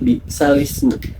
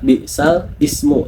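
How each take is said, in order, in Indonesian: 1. Ismu disambungkan ke bunyi l sebelumnya. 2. Ismu dibaca terpisah, dengan hamzah di awal. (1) "tapi bi'salismu" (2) "tidak dibaca"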